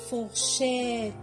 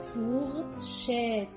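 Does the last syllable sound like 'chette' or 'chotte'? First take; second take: chette; chette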